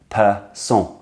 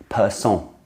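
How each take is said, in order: No difference in how they are said.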